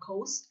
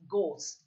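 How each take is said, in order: First: An h sound follows the g. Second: No h sound follows the g. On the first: The speaker calls it wrong. "It's not ghost" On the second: The speaker calls it right. "it's ghost. G-O. H is silent"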